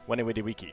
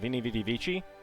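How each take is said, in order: First: It uses a non-ecclesiastical Latin pronunciation. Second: It uses the ecclesiastical Latin pronunciation. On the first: People less readily recognize it as Latin. "as opposed to" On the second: People more readily recognize it as Latin. "ecclesiastical Latin"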